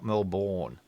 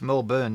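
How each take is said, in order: First: The last syllable is a full 'burn'. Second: The last syllable is short and reduced. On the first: The speaker calls it wrong. "not Melbourne. Burn, burn. We don't say Bourne" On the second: The speaker calls it right. "And it's Melbourne"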